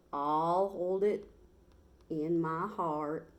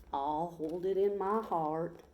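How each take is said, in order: First: Slow, stretched Texas cowboy drawl. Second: Slow, easy Texas cowboy drawl; a lazy Texas drawl, unhurried. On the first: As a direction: lean back into a lazy Texas drawl. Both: Acted. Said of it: "in his slow Texas drawl".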